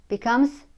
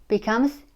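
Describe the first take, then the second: The two takes are said the same way.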